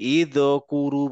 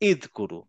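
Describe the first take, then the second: First: The consonant before kuru has an echoing bounce. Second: The consonant before kuru is stopped without bounce. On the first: The speaker calls it wrong. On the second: The speaker calls it right.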